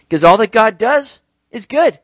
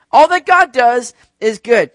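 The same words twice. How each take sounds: First: Raised, louder declaration; emphatic preaching. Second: Very loud, high, slow declaration; rousing proclamation. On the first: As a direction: drive the point home to a congregation. Preacher states point before rousing repeat. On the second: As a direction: proclaim it at full force to rally a congregation. Repeats louder to rally the congregation. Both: Real, not acted.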